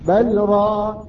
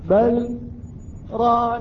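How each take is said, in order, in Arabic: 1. الكلمتان تتصلان دون سكت. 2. يفصل بين الكلمتين سكت قصير. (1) "أين السكت؟" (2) "سكت قلنا"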